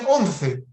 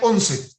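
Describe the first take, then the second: First: The c is said with the tongue between the teeth. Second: The c is said as a plain s sound. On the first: This is the sound the speaker was aiming for. The speaker calls it right. "no decían once" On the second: The imitation slipped back to the speaker's own sound. The speaker calls it wrong. "decían once"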